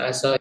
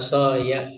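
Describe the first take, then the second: First: The final y has no vowel after it. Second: The final y is followed by an a vowel. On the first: The speaker calls it wrong. "yang nggak bisa aso ini" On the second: The speaker calls it right. "Maka dibaca aso ya"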